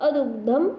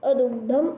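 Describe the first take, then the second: The two takes are said the same way.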